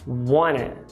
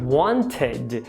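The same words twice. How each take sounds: First: The vowel after the T is reduced. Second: The vowel after the T is full.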